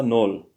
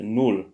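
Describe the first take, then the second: First: "nul" said as nol, with an open o; the mistaken "nul" rhymed with bol; wrong pronunciation. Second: "nul" said with a clear rounded u; the corrected "nul", lips pushed forward on u; right pronunciation. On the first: Correcting a transcription, says the wrong nol. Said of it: "c'est nul". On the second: Correcting a transcription, says the right nul. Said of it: "C'est pas nul". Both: Shown as a demonstration.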